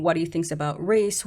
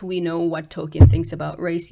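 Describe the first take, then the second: First: Said in the usual way. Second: "what" pushed up and louder, rising; stress on what. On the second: Real, not acted. Scoffing at critics of Tolkien, stress on "what". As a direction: lean hard on "what" in "we know what Tolkien thinks". Restating point with emphasis.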